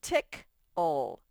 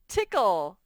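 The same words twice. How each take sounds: First: Tick-ole split slowly, ending in ol; sounding out words. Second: Said in the usual way. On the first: Shown as a demonstration. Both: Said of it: "Let's divide it into syllables".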